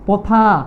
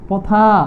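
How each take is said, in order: No difference in how they are said.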